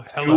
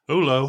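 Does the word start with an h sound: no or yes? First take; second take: yes; no. First: The word is said with the h sound. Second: The word is said without the h sound. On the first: It is the ordinary pronunciation. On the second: It imitates a character's slightly wrong pronunciation.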